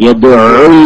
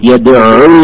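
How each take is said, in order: Both takes have the same delivery.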